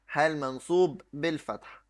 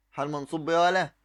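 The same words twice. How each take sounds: First: Teacher confirming the answer; answer with falling tune. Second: Quick prompt leaning on بإيه; teacher's quick fill-in-the-blank prompt; prompting question. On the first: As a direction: stress منصوب and fall on بالفتح. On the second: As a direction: say حال منصوب بإيه ولا؟ fast, as a cue for the class to finish. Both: Shown as a demonstration.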